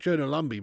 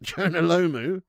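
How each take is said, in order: First: "Jonah Lumby" read out as a chat misspelling, LUM-bee; mock the typo "Jonah Lumby", stress on Lum; quoting the misspelt "Jonah Lumby" with a laugh; wrong name mocked. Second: "Jonah Lomu" said slowly and clearly, LOH-moo; correct name. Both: Shown as a demonstration. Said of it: "Not Jonah Lumby, mate".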